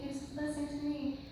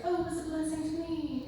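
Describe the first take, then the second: First: Softer, fast echo of the stock phrase, "blessing" leaned on; mocking repeat dropping to near-soft; repeated cliché, trailing off. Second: Higher, fast mock-gushing quote; mocking the line everyone says; cliché mission-trip gush. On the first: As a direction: let the repeat fade away. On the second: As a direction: parrot the stock phrase lightly, "Oh" leading high then falling. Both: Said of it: "you're always like".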